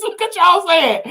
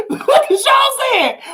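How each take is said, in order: First: Said in the usual way. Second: Laughing and calling out to viewers; laughing shout. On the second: Real, not acted. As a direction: laugh it out at the chat.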